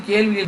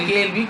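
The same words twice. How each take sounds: The two takes are said the same way.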